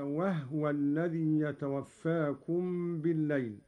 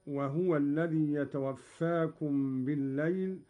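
First: "وهو" said wahwa, with no vowel on the haa; silent haa. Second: Said in the usual way. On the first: Shown as a demonstration. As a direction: recite "وهو" as wah-wa. (تسكين الهاء في "وهو") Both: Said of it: "قرأ قالون بإسكان الهاء".

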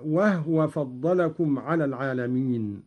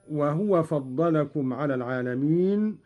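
First: وهو said "wahwa", no vowel after h; silent-vowel ha. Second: Said in the usual way. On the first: Shown as a demonstration. Teacher showing Qalun's reading, وهو as "wahwa". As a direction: close the first syllable of وهو on h: "wah-wa". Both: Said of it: "بإسكان الهاء هكذا".

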